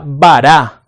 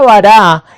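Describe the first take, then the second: First: "bara" said slowly and carefully, each syllable clear, stress on the final A as in "bará"; Hebrew word bara. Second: Said in the usual way. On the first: Shown as a demonstration. Preacher teaching the congregation the Hebrew word, slow careful "bara". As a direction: spell out "bara" slowly for the class, ending on a stressed A. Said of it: "que se escribe B larga A R A con tilde en la A". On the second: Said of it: "que se escribe B larga A R A".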